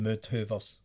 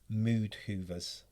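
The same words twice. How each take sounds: First: It is said in a Scottish accent. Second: It is said in an English accent. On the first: "Say it in your Scottish accent" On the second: "I have to say this in an English accent"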